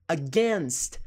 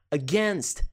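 The two takes are said the same way.

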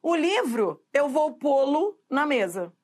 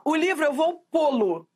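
First: "pô-lo" said naturally as "pô-lu", unstressed lo; demo sentence with pô-lo. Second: "pô-lo" with "lo" reduced to an unstressed "lu", the "livro" raised; lô turns to lu. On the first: Teacher showing students the spoken sentence, pô-lo said as pô-lu. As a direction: model the sentence, pô-lo ending in an "lu" sound. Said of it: "Você fala assim, ó". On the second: Teacher demonstrating the atonic lô becoming lu. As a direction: show the weak "lo" in "pô-lo" sounding "lu". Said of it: "Olha esse lô que vira lu". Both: Shown as a demonstration.

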